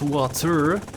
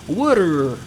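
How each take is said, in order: First: It is said in a non-American accent. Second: It is said in an American accent. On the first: "not water" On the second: "They say water"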